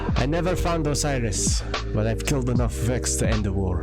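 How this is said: It is read in a put-on Russian accent. The speaker calls it right.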